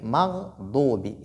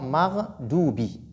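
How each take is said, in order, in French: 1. Le son d vient des côtés de la langue. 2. Le son d vient de la pointe de la langue. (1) "je dois dire mardoubi" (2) "et non mardoubi"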